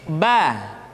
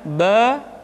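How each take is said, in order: First: The vowel is said with a wide-open mouth. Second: The vowel is said with a narrower mouth. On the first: The speaker calls it right. "Buka rongga mulut kita dengan bukaan yang sempurna" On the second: The speaker calls it wrong. "Tidak dibaca ba"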